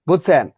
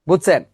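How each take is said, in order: No difference in how they are said.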